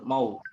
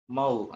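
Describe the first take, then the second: First: The syllable sounds thick and dark. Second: The syllable sounds thin and light. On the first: The speaker calls it wrong. "jangan terpengaruh tebalnya huruf go" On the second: The speaker calls it right. "ma-nya tipis"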